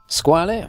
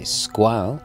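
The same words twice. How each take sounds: First: The name is said with an Italian pronunciation. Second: The name is said with a French pronunciation.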